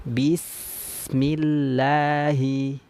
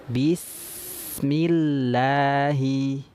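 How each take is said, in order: No difference in how they are said.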